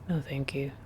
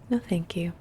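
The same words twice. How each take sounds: First: The pitch stays flat and monotone throughout. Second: The pitch is high with a curving melody. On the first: It came across as rude. The speaker calls it wrong. "very like monotone" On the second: It comes across as polite. The speaker calls it right. "Much more high pitched and with a little, no, thank you curve thing to it"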